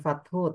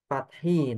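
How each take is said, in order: First: The word ends with an 'u' vowel. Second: The word ends with an 'i' vowel. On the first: The speaker calls it wrong. "bukan fathu" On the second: The speaker calls it right. "tapi fat fathi nanti ya"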